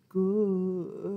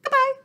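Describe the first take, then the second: First: "Goodbye." drawn out slowly. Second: "Goodbye." snapped out fast, high and loud; quick goodbye. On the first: Librarian says the goodbye as slow as she can. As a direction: stretch "Goodbye." as slowly as possible. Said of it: "say goodbye as slow as we can". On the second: Librarian says the goodbye as fast as she can. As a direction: fire off "Goodbye." in a flash. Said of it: "say goodbye as fast as we can". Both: Shown as a demonstration.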